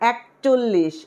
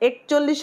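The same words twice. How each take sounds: First: The word is said carefully, each sound clear. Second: The word is said in a loose, careless way. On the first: The speaker calls it right. "কি হবে? একচল্লিশ।" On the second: The speaker calls it wrong. "একচল্লিশ হবে না কিন্তু"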